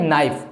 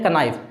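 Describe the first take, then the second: First: नाइफ said as "naif", K silent; proper नाइफ, no K sound; correct knife. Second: कनाइफ said as "k-naif", with the K pronounced; kids' mistake, कनाइफ with a K; wrong knife, K sounded. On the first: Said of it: "इसे आप पढ़ते हैं नाइफ". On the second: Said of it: "नहीं जानते हैं तो पढ़ देते हैं कनाइफ". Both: Shown as a demonstration.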